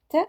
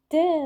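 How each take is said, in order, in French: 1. La voyelle après la consonne est courte. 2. La voyelle après la consonne est longue. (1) "on prononce T" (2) "si on lui ajoute la voyelle longue, on prononce T"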